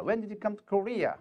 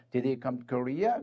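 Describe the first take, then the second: First: Slow model question, letting "Korea" fall; falling question tune. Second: "Korea" lifting up at the end, said slowly; slow model question, letting "Korea" rise; rising question tune. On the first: Teacher shows students the falling question ending. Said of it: "의문사가 있으면 뒤를 내려 읽습니다". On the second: Teacher shows students the rising yes-no ending. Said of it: "의문사가 없으면 뒤를 올려 읽습니다". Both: Shown as a demonstration.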